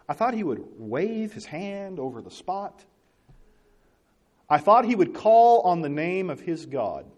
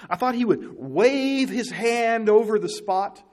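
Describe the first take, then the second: First: Slow, grand quoted demand; mock pompous Naaman. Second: Slow, drawn-out quote; higher, slow and grand, like a proud general; mock pompous Naaman. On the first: Preacher rereads Naaman's complaint, slow and lofty. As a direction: draw it out like a proud man. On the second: Preacher voicing Naaman's expectations, slow and lofty. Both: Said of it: "He says".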